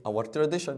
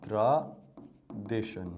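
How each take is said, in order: First: Said in the usual way. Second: Slowly drawn-out word. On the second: Shown as a demonstration. Teacher drawing out a word for students, very slow and low. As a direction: drag out "tradition" syllable by syllable, dropping low.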